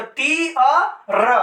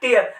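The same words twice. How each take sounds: First: "टी अ र" said slowly as separate sounds, टी then अ then र; sounded out in parts. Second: "टीयर" said as one smooth word, टी gliding into अर; blended into one word. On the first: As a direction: break टीयर into "टी अ र", slow. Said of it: "फिर अ होगा तो". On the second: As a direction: join the sounds into "टीयर" with a falling close. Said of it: "क्या हो जाएगा". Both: Shown as a demonstration.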